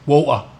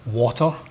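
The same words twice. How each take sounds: First: An English accent, with the T dropped. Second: A Scottish accent, with the T sounded. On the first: "English accent, water, right? They miss out the T sounding" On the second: "Scottish accent, the word water"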